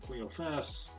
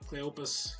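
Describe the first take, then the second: First: The middle consonant is an F sound. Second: The middle consonant is a P sound. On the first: "some say Cleophas" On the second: "He doesn't say the P H with an F sound, he says P"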